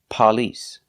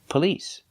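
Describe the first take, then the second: First: The stress is on the first syllable. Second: The stress is on the second syllable. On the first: The speaker calls it wrong. "It's not on the first syllable. We do not say police" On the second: The speaker calls it right. "the stress is on the second syllable"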